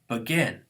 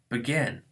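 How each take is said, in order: First: The stress is on the second syllable. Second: The same.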